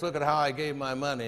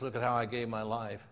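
First: Understated boast in an even recital; lightly voiced boasting man. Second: Low, soft, understated reply; lightly voiced Jesus. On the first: Man tells Jesus of his giving, mildly boastful. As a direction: lightly play the proud giver. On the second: Jesus answers the proud giver, low and quiet. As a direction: answer lower and more quietly.

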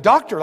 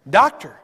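First: Said in the usual way. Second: Doctor said louder, with a firm fall; stress on Doctor. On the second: Shown as a demonstration. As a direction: punch the word Doctor to make the point. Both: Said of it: "Not an assistant".

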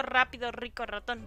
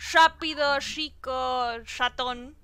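First: "rápido, rico, ratón" with a plain tapped Spanish R; crisp trilled R on "rico" and "ratón"; standard R. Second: Rolled-R-free Santiago R, buzzing sh sound on "rico"; Santiago del Estero R. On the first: Streamer contrasting the standard R with her own, clear tapped R. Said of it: "Y no digo". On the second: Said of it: "todos me dicen que hablo con la R, así como diciendo". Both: Shown as a demonstration.

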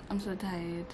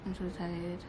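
No difference in how they are said.

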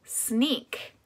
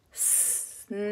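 First: Said in the usual way. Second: "Sneak" split into separate drawn-out sounds, with gaps. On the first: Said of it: "you're gonna put it together". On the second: Shown as a demonstration. Teacher gives sounds to put together, "Sneak" segmented. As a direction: say "Sneak" quietly as s, n, ee, k, pausing between. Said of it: "say the sounds of the word".

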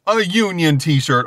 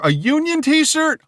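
First: Slow, emphatic, falling statement; amazed repeat. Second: High, slow, rising disbelief; incredulous question. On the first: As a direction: repeat it in awe, landing it firmly. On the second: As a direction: ask it in excited disbelief, pitch soaring. Reacting with disbelief to merchandise. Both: Real, not acted.

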